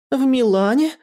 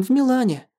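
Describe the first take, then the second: First: «В Милане» high with a rising end; incredulous echo question. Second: «в Милане» with a falling end; statement on «в Милане». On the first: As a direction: echo «В Милане» in startled disbelief. Startled echo of the revelation. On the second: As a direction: state «в Милане» as settled fact. Stated fact, later echoed as question. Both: A narrator's reading.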